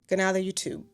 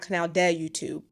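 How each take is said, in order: First: The d in "de" is soft. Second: The d in "de" is hard. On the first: The speaker calls it right. "that is a soft D" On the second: The speaker calls it wrong.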